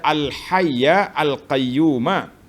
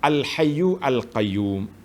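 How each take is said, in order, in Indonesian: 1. Kata pertama berakhir dengan vokal 'a'. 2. Kata pertama berakhir dengan vokal 'u'. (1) "ruwiya bin nasbi" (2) "dengan rafa'"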